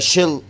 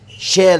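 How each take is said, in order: First: The word has a weak, reduced vowel. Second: The word has a full, clear vowel.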